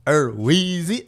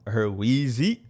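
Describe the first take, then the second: First: Erweezy sung out high and loud, rising; teasing Erweezy call; playful name call. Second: Erweezy said with a drawn r, rising; Erweezy with a curling rise at the end; playful Erweezy; name said oddly. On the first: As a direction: stretch out Erweezy in a sing-song lilt. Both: Shown as a demonstration. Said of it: "That's the only way I'm gonna say your name".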